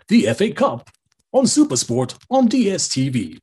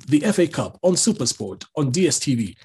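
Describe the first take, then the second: First: It is read with pitch ups and downs. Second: It is read flat and monotone.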